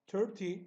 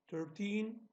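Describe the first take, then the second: First: Thirty said short and crisp, stress on the first syllable; short reading. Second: Put-on thirteen drawn out slowly, the -teen held long; long reading. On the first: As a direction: keep Thirty quick, first syllable loud and high. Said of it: "okunuşu kısa olanlar büyük rakamlar". (Thirty kısa ve vurgulu okunuyor) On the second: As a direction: stretch thirteen, lean on -teen. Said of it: "daha uzun okunuş olduğu için". (thirteen uzatılarak, yavaşça okunuyor) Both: Shown as a demonstration.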